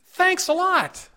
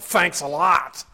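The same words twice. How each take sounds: First: It is said in a sincere tone. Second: It is said in a sarcastic tone. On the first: The thanks is really meant. The speaker calls it right. "The tone makes a difference" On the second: The thanks is not really meant. The speaker calls it wrong. "The tone makes a difference"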